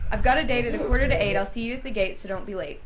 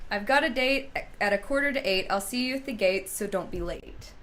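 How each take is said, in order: First: It is said at a faster pace. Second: It is said at a normal, slower pace.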